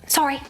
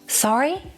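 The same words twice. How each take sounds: First: It is short and fast with a slight rise. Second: It is drawn out with a big final rise. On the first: Excuse me, let me past. "That's short" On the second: Can you repeat that? "the tone goes up at the end much more dramatically ... you stretch the vowel slightly"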